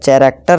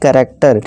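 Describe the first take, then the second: First: The word begins with a ch sound. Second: The word begins with a k sound. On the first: The speaker calls it wrong. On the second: The speaker calls it right.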